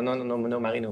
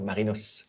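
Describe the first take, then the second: First: The name ends without an S sound. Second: The name ends with an audible S sound. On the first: The speaker calls it wrong. "There's people ask, Marino. Yeah, no, Marino" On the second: The speaker calls it right. "You pronounce the S as well in French"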